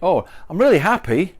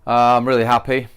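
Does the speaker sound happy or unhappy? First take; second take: happy; unhappy. First: The speaker sounds bright and cheerful. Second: The speaker sounds flat and unhappy.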